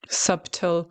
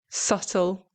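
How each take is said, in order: First: The b sound is pronounced in the middle. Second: The b sound is silent in the middle. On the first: The speaker calls it wrong. "They're trying to pronounce the B" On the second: The speaker calls it right. "It's subtle"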